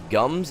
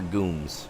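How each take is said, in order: First: The vowel is a short 'uh' sound. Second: The vowel is a long 'oo' sound. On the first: "Are those gums or gooms?" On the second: "he always pronounced it gooms"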